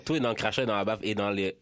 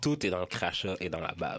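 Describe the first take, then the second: First: Quick low repeat, rattled off; fast. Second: Low and deliberate, every word weighted; slow, low advice. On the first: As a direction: rattle off the tip faster. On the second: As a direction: drop low and lay out the tip slowly. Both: Shown as a demonstration. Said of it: "je vais vous donner un truc".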